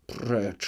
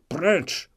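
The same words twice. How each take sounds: First: Said in the usual way. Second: Higher, sharp commanding cry; forceful rebuke. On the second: Acted. Skrzetuski drives Chmielnicki off, commanding cry. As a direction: fling the word at him.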